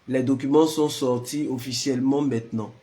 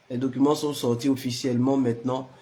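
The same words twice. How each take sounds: The two takes are said the same way.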